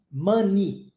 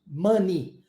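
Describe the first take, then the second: First: "Money" ending in a clear i sound. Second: "Money" again with a short i ending; y as i, repeated. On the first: Teacher modelling money for students. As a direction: say "Money" as "mani". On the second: Teacher repeating money for students. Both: Shown as a demonstration. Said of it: "o E Y, som de I".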